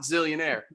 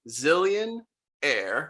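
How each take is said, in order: First: It runs together as one single word. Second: It is split into two separate words. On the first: It is the ordinary word for a very rich person. The speaker calls it wrong. "not Zillionaire" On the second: It is a name with a separate word at the end. The speaker calls it right.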